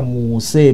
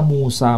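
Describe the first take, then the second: First: The name ends with an 'e' vowel. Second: The name ends with an 'a' vowel. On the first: "dibaca Muse boleh" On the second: "Dibaca Musa boleh"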